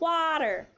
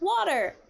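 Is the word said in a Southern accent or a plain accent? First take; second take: Southern; plain. First: It is said in the teacher's Southern accent. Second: It is said in the speaker's plain accent.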